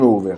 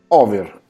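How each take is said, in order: First: The first vowel is a closed O. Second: The first vowel is an open O. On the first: The speaker calls it wrong. "non over" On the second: The speaker calls it right. "Con la O aperta"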